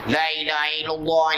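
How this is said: It is said in a gruff, gorilla-like voice.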